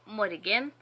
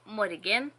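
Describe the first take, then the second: First: It is said in a full, formal form. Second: It is said in a full, formal form.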